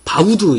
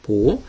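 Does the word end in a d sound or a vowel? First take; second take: d sound; vowel. First: The word is said as ba-u-deu, ending in d. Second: The word is said as bo-ho, ending in a vowel. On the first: This is how people commonly read it. "일반적으로 보면 바우드 이렇게 읽을 수도 있는데" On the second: This is the form listed in the dictionary. "사전 찾아봐도 ... 보호라고 있습니다"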